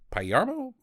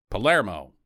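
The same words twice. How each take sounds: First: Tentative high-pitched "Palermo" mangled as pie-YAR-mo; unsure pronunciation. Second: Settled, lower "Palermo" with LAIR in the middle; corrected pronunciation. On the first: Reader stumbling on the name, unsure "Palermo" said pie-YAR-mo. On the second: Reader correcting the name, lower "Palermo" as puh-LAIR-mo. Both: Real, not acted. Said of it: "Is that how you say it".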